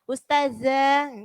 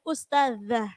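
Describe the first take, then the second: First: The middle consonant is a plain buzzing z. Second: The middle consonant is a 'dh' sound. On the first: The speaker calls it wrong. "karena ujung lidahnya nggak digigit jadi bunyinya ustazah" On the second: The speaker calls it right. "coba zanya digigit"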